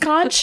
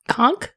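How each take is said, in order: First: The word ends with a ch sound. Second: The word ends with a k sound. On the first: The speaker calls it wrong. "This is another word that I pronounce as conch in my entire life" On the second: The speaker calls it right. "the H is silent"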